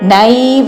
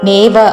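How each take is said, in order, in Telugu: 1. మొదటి అచ్చు 'ai' అనే ద్విస్వరం. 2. మొదటి అచ్చు సాధారణ 'e' ధ్వని.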